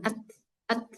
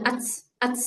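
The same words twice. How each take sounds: First: AT held briefly, then light breath. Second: AT hissed like "ats", no hold; wrong simultaneous breath. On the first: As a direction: stop the T in "at", then let air flow. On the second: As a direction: release air together with T in "at". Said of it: "jangan barengan". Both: Shown as a demonstration.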